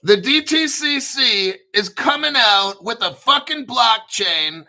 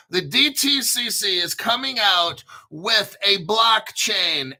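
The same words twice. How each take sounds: First: Higher and louder, punching every letter; excited announcer blast; hyped shout. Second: Said in the usual way. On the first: Shown as a demonstration. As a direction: sell it like breaking news. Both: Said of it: "Is it more clear?".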